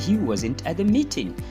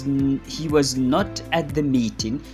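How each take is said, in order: First: The verb and not are joined together. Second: The verb and not are said separately. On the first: "you simply say" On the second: "Instead of saying"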